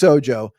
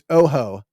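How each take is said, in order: First: The middle consonant sounds like an English J. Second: The middle consonant sounds like a breathy H. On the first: This is how the person says his own name. The speaker calls it right. "it's Ojo, J O E. That's not how it's spelled, but it's Felix Ojo" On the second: The name is read as if it were Spanish. The speaker calls it wrong. "I've seen a couple people say Felix Ojo, which is that that's not it"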